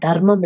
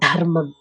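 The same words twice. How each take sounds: First: The first consonant is plain, without a breath. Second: The first consonant is aspirated, with a breath. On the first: The speaker calls it wrong. "சான்ஸ்கிரிட்ல அது தர்மம் இல்ல" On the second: The speaker calls it right. "தர்மங்கிறது மகா பிராணம். அதாவது கொஞ்சம் அழுத்தி சொல்லணும்"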